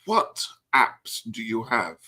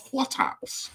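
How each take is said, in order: First: Said in the usual way. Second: Much higher, squeaky mock question. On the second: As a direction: squeak it up, teasing. Repeating question to friend.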